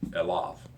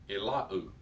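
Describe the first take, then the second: First: The word ends with a v sound. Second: The word ends with a u vowel. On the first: The speaker calls it right. "So you pronounce it with the v" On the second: The speaker calls it wrong. "the temptation is to pronounce unto the, unto him as Elau"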